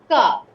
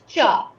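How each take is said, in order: First: It begins with a k sound. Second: It begins with a ch sound. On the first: The speaker calls it right. "It's ka" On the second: The speaker calls it wrong. "Not cha"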